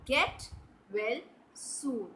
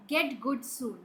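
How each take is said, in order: First: "Get well soon." with well landing as the right word; correct version. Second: "Get good soon." said as the mistake to avoid; wrong version. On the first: Teacher to children, correcting the phrase, plain model line. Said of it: "No, you say". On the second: Teacher to children, showing the wrong phrase, plainly set up. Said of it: "Do you say that?". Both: Shown as a demonstration.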